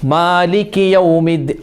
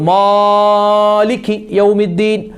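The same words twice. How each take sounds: First: The first vowel is held for a moderate length. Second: The first vowel is stretched out very long. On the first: The speaker calls it right. "ഒരു മധ്യമായ" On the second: The speaker calls it wrong. "ചില ആളുകൾ നീട്ടും"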